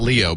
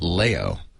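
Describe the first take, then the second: First: The first vowel sounds like 'lee'. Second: The first vowel sounds like 'lay'. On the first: The speaker calls it wrong. "which is not Leo" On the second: The speaker calls it right. "but Leo, ... as in Mayo"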